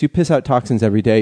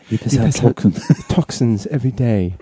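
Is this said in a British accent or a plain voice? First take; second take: plain voice; British accent. First: It is read in a plain, ordinary voice. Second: It is read in a sinister British accent.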